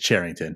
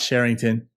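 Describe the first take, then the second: First: The name begins with a hard ch sound. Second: The name begins with a soft sh sound. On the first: The speaker calls it right. "It is Charrington" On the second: The speaker calls it wrong. "we've been pronouncing it wrong this whole time. It is not Sherrington"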